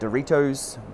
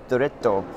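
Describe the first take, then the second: First: The name sounds like the snack 'Dorito'. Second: The name sounds like 'Doretto' with an 'eh'. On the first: This is the speaker's habitual casual name. The speaker calls it wrong. "I still call it a Dorito" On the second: This is how the makers say it. The speaker calls it right. "I learned how to pronounce it from the team"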